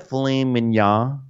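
The words are said in an affected, fancy way. "when the mom's being fancy"

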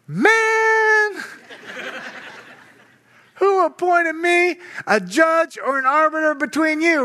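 The voice sounds relaxed and mildly exasperated. Jesus is gently brushing off the off-topic request. The speaker calls it right. "This is what I think he said"

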